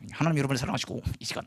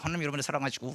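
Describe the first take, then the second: First: Preaching with the jaw locked tight; through clenched teeth. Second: Words pushed out without opening the teeth; through clenched teeth. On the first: Missionary preaching to villagers while keeping bugs out, teeth clenched. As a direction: say it without parting the teeth. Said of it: "이를 악물고 이해하게 설교하는". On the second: Preacher keeping bugs out of his mouth, teeth clenched. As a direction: keep the jaw clamped shut as you speak. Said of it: "이빨을 안 벌리고 이렇게 얘기하는 거야". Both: Shown as a demonstration.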